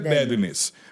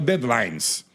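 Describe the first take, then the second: First: The name sounds like the word deadliness. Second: The name sounds like the word deadlines. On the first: This is the English pronunciation of the name. "na pronúncia do inglês, é Deadliness" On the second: This is how the band presents its own name. "fala Deadlines"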